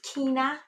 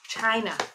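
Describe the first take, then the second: First: The word begins with a 'k' sound. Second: The word begins with a 'ch' sound. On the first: "Some people pronounce it Kina" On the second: "I love China"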